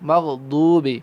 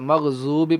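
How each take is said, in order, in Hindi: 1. बीच का व्यंजन एक भारी d जैसा बोला जाता है। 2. बीच का व्यंजन z जैसा बोला जाता है। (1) "मग़ज़ूबी नहीं पढ़ते इसको" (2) "कुछ लोग इसको ज़ौ पढ़ देते हैं"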